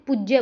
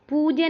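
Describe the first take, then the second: First: पूज्य as puj-je, short u and doubled j; taught short vowel. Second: पूज्य as long poo-je, single j; mistaken long vowel. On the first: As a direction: clip पूज्य onto a held j. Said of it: "पूज्य बोलते हैं". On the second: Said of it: "पूज्य नहीं बोलते". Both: Shown as a demonstration.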